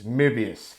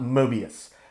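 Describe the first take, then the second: First: The first vowel is a rounded 'er'-like sound. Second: The first vowel is a plain English 'oh' sound. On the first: This is the German way. The speaker calls it right. "a cross between a uh, a, a glottal stopped O and an er sound" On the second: This is the common anglicized way. The speaker calls it wrong. "it's not Mobius"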